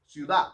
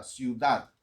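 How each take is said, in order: First: "Ciudad" said as "ciuda"; dropped final D. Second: "ciudad" with a clear final D; correct final D. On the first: Pastor showing "Ciudad" with the D dropped. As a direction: leave the D off the end of "Ciudad". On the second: Pastor showing "ciudad" said properly. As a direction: sound the D at the end of "ciudad". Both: Shown as a demonstration. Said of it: "O no pronunciar la D al final de una palabra".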